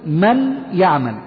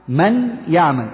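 The two takes are said the same way.

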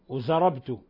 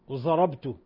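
The two takes are said the same way.

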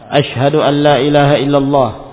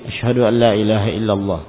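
First: It is said in a loud, ringing voice. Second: It is said in a soft, quiet voice. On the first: "dengan suara yang lantang" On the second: "dengan suara lirih"

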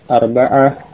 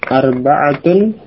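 First: The word ends without the case ending. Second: The word ends with the full case ending.

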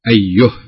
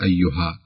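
First: The word ends on a bare h sound. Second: The word ends on an open vowel after h. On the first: The speaker calls it right. "نقف عليها ها أيه" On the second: The speaker calls it wrong. "ما نقول أيها"

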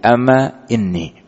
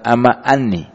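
First: The second word begins with an i vowel. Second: The second word begins with an a vowel. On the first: The speaker calls it right. "tapi amma inni" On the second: The speaker calls it wrong. "bukan amma anni"

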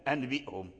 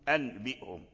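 No difference in how they are said.

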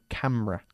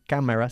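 First: The word is said with only two syllables. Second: The word is said with three full syllables. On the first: The speaker calls it right. "como si solo tuviese dos sílabas" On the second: The speaker calls it wrong. "Casi no decimos cámara"

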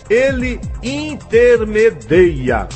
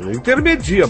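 First: The stressed vowel is an 'ei' diphthong. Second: The stressed vowel is a plain 'i' sound. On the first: The speaker calls it right. "A forma correta é intermedia" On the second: The speaker calls it wrong. "Mas é errado"

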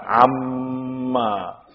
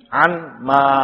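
First: The n merges fully into a doubled m. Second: The n is pronounced separately before the m. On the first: "Makanya kita ucapkan amma. Di mana nunnya? Hilang memang" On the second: "Dia gabungan dari asalnya an ma"

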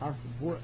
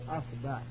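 First: The vowel after the b is u. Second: The vowel after the b is a. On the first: "والضم" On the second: "الفتح"

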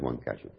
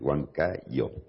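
First: It is said the way the speaker's people say it. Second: It is said the way locals say it. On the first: This is how outsiders usually say the name. The speaker calls it wrong. "Nosotros en general decimos Huancayo" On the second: This is how people there say the name. The speaker calls it right. "Acá se pronuncia Huancayo"

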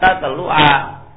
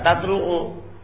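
First: The word ends with a short 'a' vowel. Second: The word ends with a short 'u' vowel. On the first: The verb is in the subjunctive mood. The speaker calls it right. "Harus dibaca fathah" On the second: The verb is in the indicative mood. The speaker calls it wrong. "tidak boleh dibaca tatlu'u"

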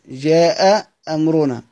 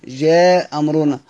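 First: Both glottal stops are pronounced between the words. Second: The first glottal stop is dropped between the words.

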